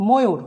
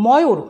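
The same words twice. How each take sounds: First: ময়ূর with closed "o" first vowel; pronounced with O. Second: ময়ূর with open "aw" first vowel; as written. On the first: Teacher giving the spoken form, ময়ূর with closed o. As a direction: say ময়ূর as "mo-yur". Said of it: "কিন্তু উচ্চারণ করব". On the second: Teacher reading out the spelling, ময়ূর with open aw. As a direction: say ময়ূর as "maw-yur". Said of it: "লিখি ময়ূর". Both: Shown as a demonstration.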